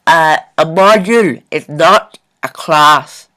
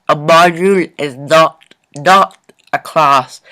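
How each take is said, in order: First: "a module is not a class" said slowly and firmly; slow emphatic statement. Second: "not" repeated and punched, slow and falling; stress on NOT. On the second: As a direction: hit "not" twice, slowly. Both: Shown as a demonstration.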